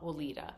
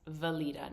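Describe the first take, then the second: First: The name begins with a W sound. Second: The name begins with a V sound. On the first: The speaker calls it wrong. "not Walida" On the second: The speaker calls it right. "the W is pronounced with a V"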